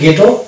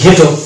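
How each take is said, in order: First: The word is said in a British way. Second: The word is said in an American way. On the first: "British ইংলিশের ক্ষেত্রে" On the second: "American ইংলিশের ক্ষেত্রে"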